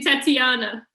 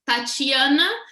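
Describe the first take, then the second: First: The name begins with a plain 't' sound. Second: The name begins with a 'ch' sound. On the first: "you guys don't have the chi, so you say just" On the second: "the way I pronounce in Portuguese"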